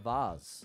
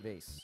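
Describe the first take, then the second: First: The word is given a fancy pronunciation. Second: The word is given an ordinary pronunciation. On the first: "I was trying to be fancy there" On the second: "I usually say vase"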